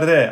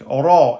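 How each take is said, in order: First: The r is light, with a thin fronted vowel. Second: The r is heavy, with a deep open vowel. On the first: The speaker calls it wrong. "et pas ré" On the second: The speaker calls it right. "c'est donc euh, emphatique. Ra"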